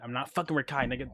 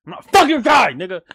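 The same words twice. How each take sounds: First: Said in the usual way. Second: High, loud yell of "I'm not fucking Rakai"; the same line yelled much higher and louder. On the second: Real, not acted. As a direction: shout it out, exasperated. Repeats line yelling.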